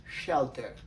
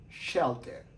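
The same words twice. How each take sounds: First: "shelter" with sh at the start, shel-ter; English shelter. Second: "Shelter" repeated, sh at the start, stress on shel; English shelter. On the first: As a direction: model "shelter" for the class. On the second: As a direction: model "Shelter" for the class again. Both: Shown as a demonstration. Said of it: "les prononce comme".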